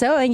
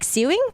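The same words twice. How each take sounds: First: The first syllable sounds like 'so'. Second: The first syllable sounds like 'sue'. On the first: This is the usual pronunciation of the word. The speaker calls it right. "you would not think it's pronounced sewing" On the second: This is how a non-native reader might misread the spelling. The speaker calls it wrong. "You'd be like sewing"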